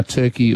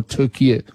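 First: Said in the usual way. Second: "Turkey" said as Türkiye, with an extra final syllable; "Turkey" pronounced in three syllables, like Türkiye; Turkish pronunciation. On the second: Shown as a demonstration. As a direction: say "Turkey" the Turkish way, as "Tur-kee-yeh". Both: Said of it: "whether it is now Turkey or Turkey".

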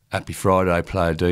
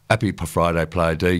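First: Said in the usual way. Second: Light Essex accent, Player "deɪ"; a hint of Essex, "Player D" as "Player day". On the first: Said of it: "I'm just gonna give it a crack". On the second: Shown as a demonstration. DJ reading a listener's text aloud, light Essex accent. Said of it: "I just sort of done a sort of Essex accent".

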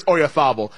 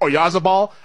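First: Oyarzabal the Castilian way, z as th. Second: Oyarzabal said the English way, with a buzzing z; Oyarzabal with a z sound. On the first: Host insists on the name, Oyarzabal with Castilian th. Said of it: "I'm pretty sure it's". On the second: Host quotes how some pronounce it, Oyarzabal with a hard z. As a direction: Anglicize Oyarzabal, voicing the z. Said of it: "pronounce it, say". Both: Shown as a demonstration.

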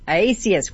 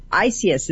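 First: Isias said as "eye-AY-see-us"; corrected name pronunciation. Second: Isias said as "eye-SEE-us"; tentative name pronunciation. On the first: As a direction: echo Isias with the AY syllable restored. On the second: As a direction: try Isias without an AY syllable. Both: Real, not acted. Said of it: "is that how I say your name?".

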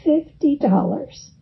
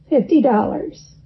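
First: "Fifty dollars" said with mild, grudging regret; a touch of rueful resignation on "Fifty dollars". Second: "Fifty dollars" lightly hammed up, rising, as if for a child; mildly playful "Fifty dollars" like horsing around; comical voice. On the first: Retold or imitated. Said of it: "he said ruefully". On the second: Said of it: "he said in a comical voice".

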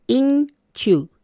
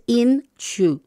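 First: "inshu" said very slowly with a ch sound, as in "inchu"; slow, careful "inshu" with a ch in the middle; correct pronunciation. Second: Slow "inshu" with the sh of "show"; "inshu" with a plain sh, the wrong way; wrong pronunciation. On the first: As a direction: model "inshu" with a clear ch, higher and slow. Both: Shown as a demonstration. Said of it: "No es inshu, es inshu".

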